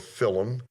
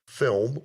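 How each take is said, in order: First: The word is said in an Irish accent. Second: The word is said in a plain accent.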